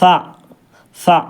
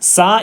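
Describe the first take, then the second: First: The consonant is a th with tongue between teeth. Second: The consonant is a plain hissing s sound. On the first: The speaker calls it right. "താഴെ രണ്ട് പല്ലിൻ്റെ ഇടയിൽ ... നാവ് വരുന്ന അവസ്ഥ" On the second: The speaker calls it wrong. "സ എന്നാകാൻ പാടില്ല"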